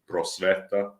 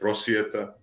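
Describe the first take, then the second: First: The middle syllable is pronounced with a plain 'e'. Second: The middle syllable is pronounced with a 'ye' sound. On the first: This is the form used in Serbia proper. "like here in Serbia proper, we say prosveta" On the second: This is the Ijekavian regional form. "you're in the uh, what we call Iekavica. Uh, so you say prosvjeta"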